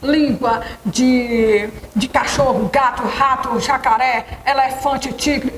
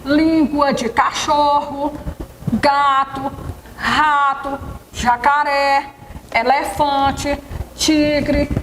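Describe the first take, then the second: First: The words run together quickly with no pauses. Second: Each word is separated by a short pause. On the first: The list is hard to understand. The speaker calls it wrong. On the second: The list can be understood. The speaker calls it right.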